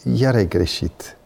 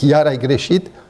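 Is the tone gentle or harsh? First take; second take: gentle; harsh. First: It is said in a gentle, calm tone. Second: It is said in a harsh, raised tone. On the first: The listener does not feel attacked. The speaker calls it right. "nu-l atac" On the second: The listener feels attacked and becomes defensive. The speaker calls it wrong. "eu nici nu m-am gândit că îi creez în el frustrare și nevoia de a se autoapăra"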